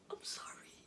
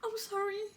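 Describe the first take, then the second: First: Breathless whispered apology; trembling whisper. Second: Voiced, crying apology; tearful apology. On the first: Acted. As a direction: whisper it through tears. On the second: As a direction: say it aloud through tears.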